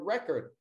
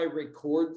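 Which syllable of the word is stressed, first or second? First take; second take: first; second. First: The stress is on the first syllable. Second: The stress is on the second syllable. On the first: The word is used as a noun. "It's a noun now" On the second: The word is used as a verb. "That's a verb"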